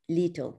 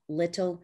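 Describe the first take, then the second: First: The first vowel is a long 'ee' sound. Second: The first vowel is a short 'i' sound. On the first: The speaker calls it wrong. "That vowel typically is changed to a long E" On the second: The speaker calls it right. "We say big, pig, little"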